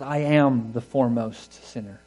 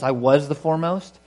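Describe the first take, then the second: First: "am" slowed and weighted, falling at the end; stress on AM. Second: Said in the usual way. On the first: Shown as a demonstration. Preacher correcting the past tense, pressing on "am". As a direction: drag out "I am the foremost sinner", landing on "am". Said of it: "he speaks emphatically". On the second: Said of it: "Not "I was".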